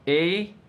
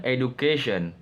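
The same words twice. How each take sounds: First: EDUCATION split into e, du, ca, tion with long pauses; syllable breakdown. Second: Said in the usual way. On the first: Shown as a demonstration. Student presenting four syllables of education, said one by one. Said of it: "syllable breakdown". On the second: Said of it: "And the last one".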